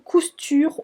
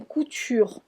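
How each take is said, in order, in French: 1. On entend un son s avant le t. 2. On n'entend pas de son s avant le t. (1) "Quelquefois ça se dit" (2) "quelquefois ça se dit pas les S"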